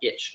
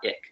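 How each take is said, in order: First: The ending is said with a ch sound. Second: The ending is said with a k sound. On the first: The speaker calls it right. "it sounds like itch" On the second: The speaker calls it wrong. "not ick"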